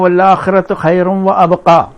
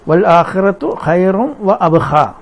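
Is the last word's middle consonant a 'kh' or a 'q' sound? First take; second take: q; kh. First: The last word has a 'q' sound. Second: The last word has a 'kh' sound. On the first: The speaker calls it right. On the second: The speaker calls it wrong.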